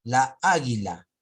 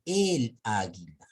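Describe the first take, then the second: First: "La águila" slow and loud as the wrong example; wrong form shown. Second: "el águila" slowly as the right way; correct form shown. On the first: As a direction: stretch "La águila" to show the clash. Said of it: "es incorrecto". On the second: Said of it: "a decir muy diferente". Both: Shown as a demonstration.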